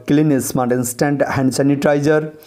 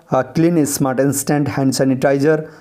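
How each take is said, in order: The two takes are said the same way.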